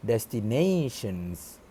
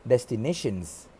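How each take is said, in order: First: "destinations" slowly, with a long gliding "nay"; standard destinations. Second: "destinations" with short e in "nay"; mispronounced destinations. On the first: Shown as a demonstration. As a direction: stretch "destinations" as "des-ti-NAY-shuns". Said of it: "instead of the I P A pronunciation". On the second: Retold or imitated. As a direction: say "destinations" as "des-ti-neh-shuns". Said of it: "The word destinations was pronounced".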